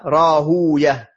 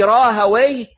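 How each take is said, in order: First: The name ends with an 'ouya' sound. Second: The name ends with an 'away' sound. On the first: This keeps the original Persian form. "ça c'est la prononciation perse" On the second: This is the Arabized form. "c'est la manière arabisée de son nom"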